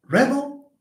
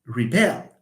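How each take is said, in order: First: "rebel" as REB-ul, pitched high; stress on first syllable. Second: "rebel" as ree-BELL; stress on second syllable. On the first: Teacher shows stress shifting, noun "rebel" stressed on the start. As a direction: lift and hit "reb" in "rebel". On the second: Teacher shows stress shifting, verb "rebel" stressed on the end. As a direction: move the weight to "bel" in "rebel". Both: Shown as a demonstration. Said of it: "Stress shifts".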